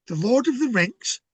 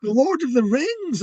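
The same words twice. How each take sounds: First: Puzzled high question, "Rings" ending in a hard "ks", like "rinks"; RINGS misheard as rinks. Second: High, drawn-out correction, "Rings" with a clear voiced "z" ending; corrective stress on RINGS. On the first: Retold or imitated. Schoolboy mishearing a classmate, "Rings" said as "rinks", puzzled. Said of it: "Ice skating? What's that all about?". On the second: Classmate correcting a mishearing, "Rings" stressed with a buzzing "z" ending. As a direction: spell out "Rings" slowly and emphatically, pitched up. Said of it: "he was like, "No, no, no, no".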